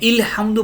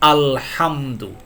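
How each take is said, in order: First: The word begins with an i vowel. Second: The word begins with an a vowel. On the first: The speaker calls it wrong. "ইলহামদু পড়েন না" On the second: The speaker calls it right. "আপনাকে চক্ষু বন্ধ করে আ পড়তে হবে"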